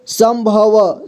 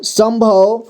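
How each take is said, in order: First: संभव spelled out as sam-bha-va; syllable-by-syllable reading. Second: Said in the usual way. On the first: Shown as a demonstration. Teacher showing learners how to join letters, संभव as sam-bha-va. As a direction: sound out संभव with the final vowel voiced. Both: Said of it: "जोड़ जोड़ करके पढ़ना है".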